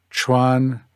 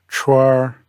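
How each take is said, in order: First: "chuan" ending in n, no r; "chuan" without r-colouring; standard n ending. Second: "chuar" ending in a curled r; r-coloured "chuar"; northern R-colouring. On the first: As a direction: model "chuan" with its final n. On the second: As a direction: turn the end of "chuar" into a Beijing r. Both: Shown as a demonstration. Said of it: "chuan would be chuar".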